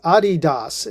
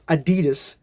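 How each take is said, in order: First: It uses the brand's own pronunciation. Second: It uses the common American pronunciation. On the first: This is how the brand itself says it. The speaker calls it right. "that is the correct spelling or pronunciation as far as uh, from from the brand manager of Adidas" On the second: This is how Americans have long said it. The speaker calls it wrong. "as we Amer- Americans have pronounced it all these years"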